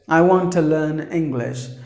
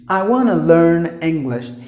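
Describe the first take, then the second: First: Each word of 'want to' is said separately. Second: 'Want to' is blended together as 'wanna'. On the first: The speaker calls it wrong. "Usually the second language speakers um, may say the sentence as" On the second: The speaker calls it right. "They always blend the words together and then pronounce it"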